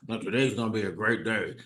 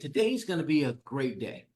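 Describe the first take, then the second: First: It is said gloomily, without enthusiasm. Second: It is said cheerfully, with a smile.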